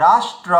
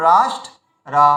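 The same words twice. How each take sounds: First: Said in the usual way. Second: রাষ্ট্র cut after ট, pause, then রা; split word. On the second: Shown as a demonstration. Teacher shows learners what to do, রাষ্ট্র said in two pieces. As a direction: break রাষ্ট্র before its last syllable. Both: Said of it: "তো আমরা কি করবো".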